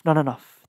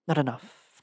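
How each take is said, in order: First: The same words, louder. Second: Said in the usual way. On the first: Acted. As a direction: push the repeat out louder. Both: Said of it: "the pain sang".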